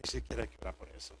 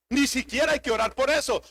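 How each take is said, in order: First: Hushed fast whisper; quick breathy aside to the congregation. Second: Loud, punched preaching line; emphatic pulpit declaration; insistent repeat. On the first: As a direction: drop to a secret whisper. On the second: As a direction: drive the point home from the pulpit. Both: Shown as a demonstration. Preacher repeats line, then whispers it.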